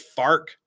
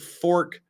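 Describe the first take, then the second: First: The vowel sounds like the one in 'far'. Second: The vowel sounds like the one in 'for'.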